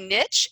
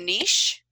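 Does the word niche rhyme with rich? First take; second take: Yes; No. First: It is said so that it rhymes with rich. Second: It is said so that it does not rhyme with rich.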